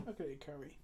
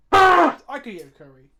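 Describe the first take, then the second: First: Soft, murmured echo; quiet repeat. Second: Big, loud, hungry announcement; loud declaration. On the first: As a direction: say it again under your breath. Repeats line, second hushed. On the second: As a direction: belt it out like a craving. Repeats line, first loud. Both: Real, not acted.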